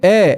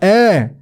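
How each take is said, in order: First: The vowel is a plain, fairly close e sound. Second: The vowel is said with the jaw dropped open. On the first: The speaker calls it wrong. "그냥 에" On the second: The speaker calls it right. "에가 아니라 에"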